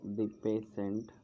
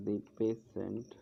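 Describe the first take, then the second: No difference in how they are said.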